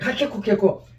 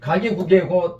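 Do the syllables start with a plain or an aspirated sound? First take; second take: aspirated; plain. First: The syllables start with an aspirated k consonant. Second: The syllables start with a plain, unaspirated consonant. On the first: The speaker calls it wrong. "이렇게 발음한 사람이 있는데 그건 정말 아니에요" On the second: The speaker calls it right. "그대로 발음해요"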